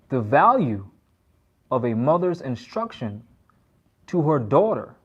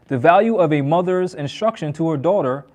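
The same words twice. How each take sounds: First: It is read at a slower pace. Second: It is read at a faster pace.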